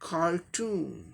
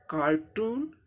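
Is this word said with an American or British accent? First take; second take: American; American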